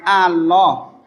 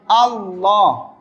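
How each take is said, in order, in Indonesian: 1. Bunyi l-nya pendek dan tunggal. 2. Bunyi l-nya ditahan dan dobel. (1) "bukan Allah" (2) "pakai tasdid"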